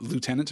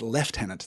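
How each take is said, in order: First: It is said the American way, with a 'u' sound. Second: It is said the British way, with a harder 'v' sound. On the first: The pronunciation follows the later spelling. "pronouncing it lieutenant makes a lot of sense" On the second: The pronunciation keeps the older form from French. "it was left as lieutenant"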